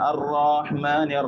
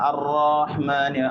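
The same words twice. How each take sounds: No difference in how they are said.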